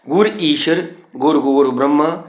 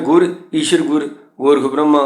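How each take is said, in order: First: The pause comes right after the word ishvar. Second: The pause comes after the second word gur. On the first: The guru is like God, and like Gorakh and Brahma. The speaker calls it right. "इथे इथे रुकना है" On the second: The meaning becomes doctrinally unsound. The speaker calls it wrong. "ये नहीं। ईश्वर गुर गोरख ब्रह्मा गुर, ये पाठ गलत है"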